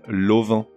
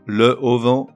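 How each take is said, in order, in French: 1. Seul un son l se rattache à auvent. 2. On prononce un 'le' plein devant auvent.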